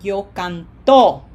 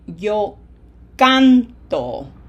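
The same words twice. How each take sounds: First: The stress is on the last syllable. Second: The stress is on the first syllable. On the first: It sounds like a past-tense form. The speaker calls it wrong. "If we don't put it there, it's going to sound like" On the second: It means the present-tense 'I sing'. The speaker calls it right. "I highlight the syllable that gets pronunciation emphasis because we want to say"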